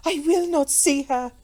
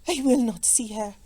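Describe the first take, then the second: First: High, loud, adamant refusal; insistent repeated refusal. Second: Firm, contained refusal; mechanical refusal. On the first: Rigid Comtesse refuses to meet her enemy, adamant. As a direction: insist harder, pitched up and forceful. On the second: Rigid Comtesse refuses to meet her enemy, mechanical. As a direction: refuse stiffly, holding excitement in. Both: A narrator's reading. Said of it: "She repeated mechanically".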